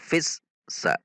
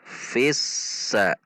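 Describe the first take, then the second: First: The s sound is held back and cut short. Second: The s sound flows out continuously. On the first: The speaker calls it wrong. "Tidak dibaca fissa" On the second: The speaker calls it right. "namun fissa. Fissa. Mengalir"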